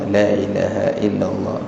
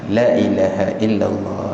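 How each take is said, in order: First: The long vowels are cut short. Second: The long vowels are cut short.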